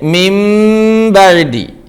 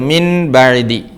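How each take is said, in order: First: The first word ends with an m sound. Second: The first word ends with an n sound. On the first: "മിം ബഅദി ഇങ്ങനെയാ വായിക്കുക" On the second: "എഴുത്തിൽ ഇപ്പോൾ കാണുന്നത് നൂനാണെങ്കിലും"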